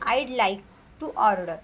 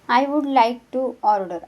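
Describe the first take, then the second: First: 'Would' is contracted into 'I'd'. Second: 'Would' is said as a full separate word.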